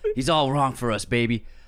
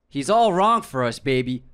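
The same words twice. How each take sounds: First: It is said in a rough raspy voice. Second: It is said in a plain natural voice. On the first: "He has a raspy voice" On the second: "you started doing an accent halfway through"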